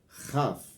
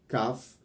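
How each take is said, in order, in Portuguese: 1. A primeira consoante é um som de fricção rascante. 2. A primeira consoante é uma oclusiva dura. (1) "terá um som áspero de raf" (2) "terá o som duro de kaf"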